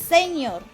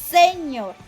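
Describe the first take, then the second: Both takes have the same delivery.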